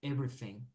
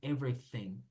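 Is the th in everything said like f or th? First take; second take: f; f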